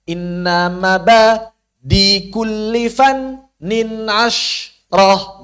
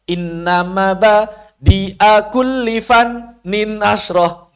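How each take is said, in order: First: Mabadi ends without the hamzah and 'a'. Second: Mabadi ends with a pronounced hamzah and 'a'. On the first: The verse rhythm fits. The speaker calls it right. "Maka dibuat sukun hamzahnya atau dimad sekalian" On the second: The verse rhythm does not fit. The speaker calls it wrong. "Karena kalau A-nya dibaca, iramanya nggak pas"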